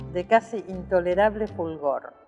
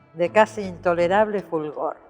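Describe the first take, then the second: No difference in how they are said.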